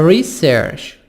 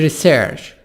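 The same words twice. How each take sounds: First: The stress is on the first syllable. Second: The stress is on the second syllable. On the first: It is used as a noun. "الكلمة دي كانت noun" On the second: It is used as a verb. "ضغطت على آخر الكلمة"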